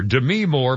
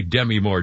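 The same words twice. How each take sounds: First: Demi stressed on the second syllable, "duh-MEE"; current pronunciation. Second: Demi stressed on the first syllable, "DEM-ee"; former pronunciation. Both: Shown as a demonstration. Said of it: "it used to be Demi Moore".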